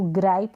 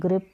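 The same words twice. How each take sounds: First: ग्राइप with the gliding vowel of "ripe"; wrong "ai" vowel. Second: ग्रिप with the short vowel of "sit". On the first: Teacher warning against a misreading, ग्राइप with an "ai" sound. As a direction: show the misreading ग्राइप, rhyming with "pipe". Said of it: "इसको ग्राइप ना पढ़ें". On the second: Teacher giving the proper reading, ग्रिप with short i. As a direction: model ग्रिप rhyming with "ship". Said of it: "ग्रिप पढ़ें". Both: Shown as a demonstration.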